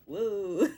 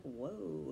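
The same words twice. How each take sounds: First: Loud whoa through real laughter; laughing whoa. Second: Soft stunned whoa; a hushed, taken-aback whoa; quiet whoa. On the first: Real, not acted. Viewer cracking up at the scene, with a loud laughing whoa. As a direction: burst into it laughing. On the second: Retold or imitated. Viewer reacting to the offer, with a soft stunned whoa. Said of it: "And I'm like".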